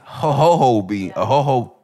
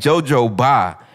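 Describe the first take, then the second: First: The word starts with an H sound. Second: The word starts with a J sound. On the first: The speaker calls it right. "apparently it's ho-ho-ho oil" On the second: The speaker calls it wrong. "I was saying jojoba"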